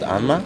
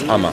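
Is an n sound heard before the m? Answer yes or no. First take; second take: yes; no. First: An n sound is heard before the m. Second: No n sound is heard before the m. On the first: "it's called Anma" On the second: "but in Japanese, where the massage comes from, uh, it's Ama"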